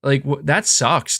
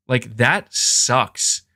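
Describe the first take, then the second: First: Said in the usual way. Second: Slow disgusted repeat. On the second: Retold or imitated. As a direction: drag out that sucks slowly. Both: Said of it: "And I'm like".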